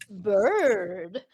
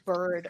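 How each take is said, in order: First: The word is said with lively pitch movement. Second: The word is said in a flat monotone. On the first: The speaker calls it wrong. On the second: The speaker calls it right.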